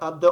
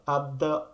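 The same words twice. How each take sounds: First: The phrase is said at a fast pace. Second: The phrase is said at a slower pace.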